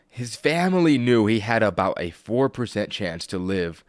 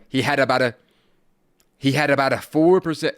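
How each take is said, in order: First: It is said slowly and calmly. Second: It is said fast and loud.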